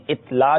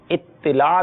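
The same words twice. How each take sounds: First: اطلاع as it-laa, no vowel after the t; wrong pronunciation. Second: اطلاع slowly, it-ti-laa with doubled t; correct pronunciation. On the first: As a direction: cite اطلاع wrongly in two syllables, it-laa. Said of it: "یہ درست نہیں ہے". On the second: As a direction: hold the t of اطلاع, then short i: it-ti-laa. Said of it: "درست ہے". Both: Shown as a demonstration.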